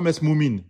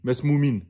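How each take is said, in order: The two takes are said the same way.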